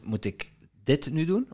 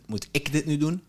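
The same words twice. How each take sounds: First: The stress falls on the word dit. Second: The stress falls on the word ik. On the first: Maybe other tasks matter more. "Of zijn er andere dingen die belangrijk zijn die ik moet doen?" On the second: Maybe someone else could do it. "Of kan het ook iemand anders zijn?"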